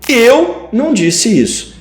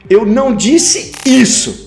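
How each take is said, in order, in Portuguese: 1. A ênfase cai na palavra eu. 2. A ênfase cai na palavra isso. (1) "Alguém disse, mas não fui eu" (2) "eu disse aquilo, mas isso que você está dizendo que eu disse, eu não disse"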